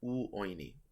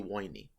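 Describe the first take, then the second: First: The word begins with a full u vowel. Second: The word begins with a w sound. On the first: This is how it is said today. "The modern pronunciation is" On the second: This is how it was said in the past. "It used to just be"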